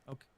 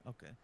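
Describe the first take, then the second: Both takes have the same delivery.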